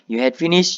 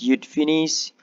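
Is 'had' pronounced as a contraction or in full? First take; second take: full; contraction. First: The word had is pronounced in full. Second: Had is shortened to a d sound. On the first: It suits formal speech. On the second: It suits informal speech.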